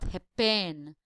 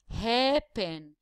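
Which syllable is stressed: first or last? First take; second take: last; first. First: The stress is on the last syllable. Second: The stress is on the first syllable. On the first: The speaker calls it wrong. "and not happen" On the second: The speaker calls it right. "the first syllable is the stressed one"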